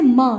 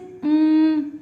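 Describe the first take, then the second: First: The consonant is followed by an added vowel. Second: The consonant is said alone without a vowel. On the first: The speaker calls it wrong. "You will not say ma" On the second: The speaker calls it right. "You will say mm"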